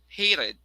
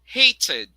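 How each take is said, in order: First: The middle T sounds like a quick D. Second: The middle T is a crisp T sound. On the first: "in America" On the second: "the first version is the British"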